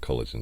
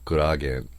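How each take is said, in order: First: It is said the English way, with an l sound. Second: It is said the Japanese way, with an r sound.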